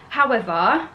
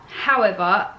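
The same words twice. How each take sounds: The two takes are said the same way.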